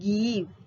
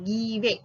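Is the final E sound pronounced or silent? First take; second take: silent; pronounced. First: The final E is silent. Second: The final E is pronounced. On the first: The speaker calls it right. "It's called give" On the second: The speaker calls it wrong. "not give"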